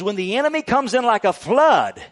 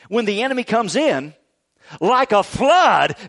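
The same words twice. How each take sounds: First: It runs on without a pause after 'comes in'. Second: There is a pause right after 'comes in'.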